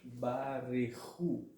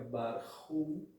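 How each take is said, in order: First: A short vowel is heard between r and ch. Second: No vowel is heard between r and ch. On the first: The speaker calls it right. "e sim barehu ... um Shiva audível" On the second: The speaker calls it wrong. "a palavra não fica barhu"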